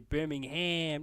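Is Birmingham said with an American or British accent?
American. It is said American-style, with a full 'ham'.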